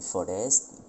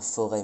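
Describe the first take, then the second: First: The word is said with an S sound. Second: The word is said with no S sound. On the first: This is the Old French pronunciation. "mais forest" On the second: This is the modern pronunciation. "on disait pas forêt"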